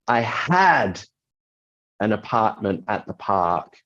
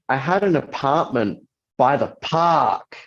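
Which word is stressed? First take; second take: had; park. First: The word had carries the strongest stress. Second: The word park carries the strongest stress. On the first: The apartment is no longer owned. "by emphasizing the word had" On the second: Where the apartment was is the important point. "by emphasizing park"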